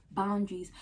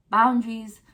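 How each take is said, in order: First: Said in the usual way. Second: Boundaries punched out loud; loud emphasis. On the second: Shown as a demonstration. Telling viewers to set limits, loud punch. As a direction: hit "Boundaries" hard and loud.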